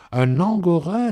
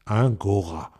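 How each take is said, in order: First: "un angora" said in full, the an clearly voiced, pitched higher; correct pronunciation. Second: "Un gora", the wife's clipped version of angora; mispronounced word. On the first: Husband correcting his wife, "un angora" with the full an. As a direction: correct her with "un angora", stressing the an. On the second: Acted. Wife proudly naming her gift, saying "Un gora". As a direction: say "Un gora" dropping the an, as one wrong word. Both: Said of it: "on ne dit pas un gora".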